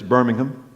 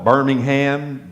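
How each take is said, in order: First: It is said with an English pronunciation. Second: It is said with an Alabama pronunciation. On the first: "if you go to England, it's" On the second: "I'm from Alabama. We call it"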